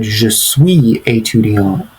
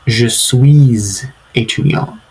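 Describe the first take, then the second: First: Je suis étudiant said slowly, with suis dropped flat and no z before étudiant; without linking S. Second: Je suis étudiant said slowly, with the S of suis sounded as z before étudiant; with linking S. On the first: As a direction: leave a gap between suis and étudiant. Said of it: "if you said". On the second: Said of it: "say the S at the end of". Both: Shown as a demonstration.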